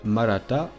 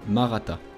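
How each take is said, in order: First: It is pronounced the local Indian way. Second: It is pronounced the French way. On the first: "que l'on appelle Maratha dans la langue locale" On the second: "si on le prononce à la française"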